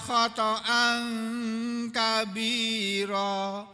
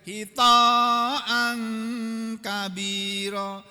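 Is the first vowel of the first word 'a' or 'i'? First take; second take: a; i. First: The first two syllables carry short 'a' vowels. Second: The first syllable has 'i', then a long vowel. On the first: "dengan memfathah huruf huruf kha dan huruf ta-nya" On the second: "dengan mengkasrah huruf kha, mamdudan"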